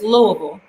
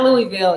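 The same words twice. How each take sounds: First: The name is said in the local Louisville way. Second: The name is said in a non-local, Texas-Louisiana way. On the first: The speaker calls it right. "but it's Louisville" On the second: The speaker calls it wrong. "it's not Louisville. You know, that's the the uh, Texas, Louisiana in me wants to say that"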